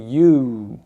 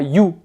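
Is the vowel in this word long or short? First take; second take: long; short. First: The vowel is long. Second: The vowel is short. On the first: The speaker calls it right. "c'est un OU ici qui est long" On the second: The speaker calls it wrong. "c'est pas you"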